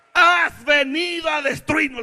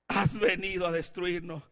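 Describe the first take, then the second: First: High, slow, loud shout; devil's cry. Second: Said in the usual way. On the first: Acted. The devil himself to Jesus, shouted cry. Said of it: "lo está diciendo el mismo diablo".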